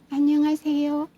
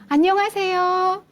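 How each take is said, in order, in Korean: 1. 이 인사는 아주 작게 말해요. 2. 이 인사는 또렷하고 잘 들리게 말해요.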